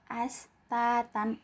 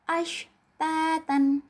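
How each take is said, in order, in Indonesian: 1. Kata ini dimulai dengan bunyi 's' biasa. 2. Kata ini dimulai dengan bunyi 'sh' yang jelas. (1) "cuma dibaca as. ... ini kurang tepat ya" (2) "harus jelas kalau ini huruf shin dibacanya ash"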